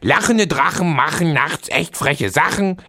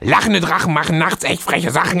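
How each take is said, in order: First: It is said at a normal quick pace. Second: It is said even faster than before.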